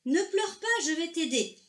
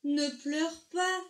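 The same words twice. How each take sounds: First: Higher, louder, brisker comforting; eager reassurance. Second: Slow, high, tender comforting; gentle soothing. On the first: Argento comes closer and offers help, bright eager reassurance. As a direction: lift the voice and promise help. Fish approaches, promises help. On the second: Argento first comforts the crying whale, slow and soothing. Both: A narrator's reading.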